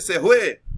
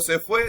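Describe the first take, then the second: First: Fue begins with a throaty h sound. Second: Fue begins with an f sound.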